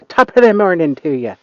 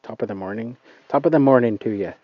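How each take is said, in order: First: Put-on louder, higher, more committed Irish accent; second, bolder try at an Irish accent. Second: Put-on quick, tentative stab at an Irish accent; first shaky go at an Irish accent. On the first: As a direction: go for it, a hammed-up Irish brogue. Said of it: "if that's a good Irish accent". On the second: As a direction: try out a hesitant Irish brogue, a bit rushed. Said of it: "I don't know if that's even a good Irish accent".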